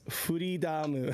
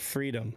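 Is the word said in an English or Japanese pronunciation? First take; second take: Japanese; English. First: It is said with a Japanese pronunciation, ending 'damu'. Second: It is said with a plain English pronunciation.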